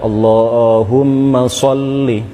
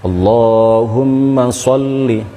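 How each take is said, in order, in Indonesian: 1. Vokal pada 'ma' dan 'li' pendek. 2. Vokal pada 'ma' dan 'li' pendek.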